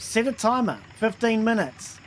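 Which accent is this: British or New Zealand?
New Zealand. It is said in a New Zealand accent. The speaker calls it wrong. "Google has problems with my Kiwi accent"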